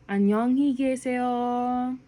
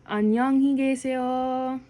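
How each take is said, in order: Both takes have the same delivery.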